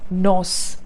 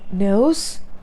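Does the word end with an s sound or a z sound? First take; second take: s sound; z sound. First: The word ends with an s sound. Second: The word ends with a z sound. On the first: The speaker calls it wrong. "It's not nos" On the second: The speaker calls it right. "All the three pronunciations had z sound"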